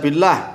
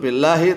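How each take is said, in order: First: The word ends without a final vowel. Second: The word ends with a final 'i' vowel. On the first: The grammatical case is unclear. The speaker calls it wrong. "Kalau dibaca billah, tallah, wallah itu aja belum sumpah karena nggak jelas" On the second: The word is marked as genitive. The speaker calls it right. "harus majrur"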